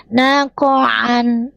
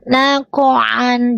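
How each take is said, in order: First: The vowel is kept short. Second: The vowel is kept short.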